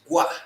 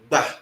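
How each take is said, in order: First: The word starts with a g followed by w. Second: The g and b are said together as one sound. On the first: "the sound you are going to get is gwa, not ba" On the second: "to the tap speaker, that is a very easy thing to do"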